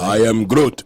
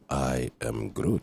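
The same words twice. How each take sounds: First: It is said more strongly and loudly. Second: It is said more softly and quietly.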